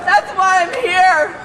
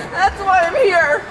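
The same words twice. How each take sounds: The two takes are said the same way.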